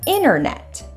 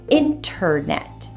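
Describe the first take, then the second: First: The T after the N is left silent. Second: The T after the N is clearly pronounced. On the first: "Americans will frequently say internet" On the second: "Instead of saying internet"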